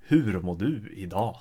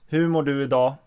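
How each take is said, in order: First: Northern Swedish dialect. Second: Quicker, plainer own-dialect Swedish. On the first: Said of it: "Northern dialect would be more". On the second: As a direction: say it in your usual non-northern Swedish. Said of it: "in my dialect". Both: Shown as a demonstration.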